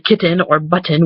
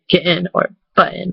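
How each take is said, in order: First: The middle t is a full t sound. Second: The middle t is a glottal stop. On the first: "We don't say kitten or button" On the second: "you kind of stop your voice a little bit when you say it"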